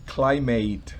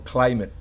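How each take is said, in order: First: The ending is a full, clear 'ate' sound. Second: The ending is a short, unstressed 'it' sound. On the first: The speaker calls it wrong. "no es climate" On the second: The speaker calls it right. "sino climate"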